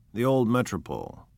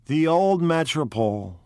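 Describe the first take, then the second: First: Said in the usual way. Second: Higher, louder brooding gangster, full of regret; lost in dark memories; gloomy brooding. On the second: Acted. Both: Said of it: "brooded Mister Wolfsheim gloomily".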